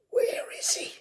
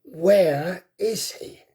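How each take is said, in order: First: Breathless whispered hiss; a dying dragon barely able to speak; weak hiss. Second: Slow, voiced, menacing dragon hiss; gathering strength, hunting his prey; stronger hiss. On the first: Wounded dragon hisses weakly, searching for Hiccup. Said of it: "he hissed weakly". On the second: Dying dragon hisses more strongly, searching for Hiccup. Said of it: "hissed a little more strongly". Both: A narrator's reading.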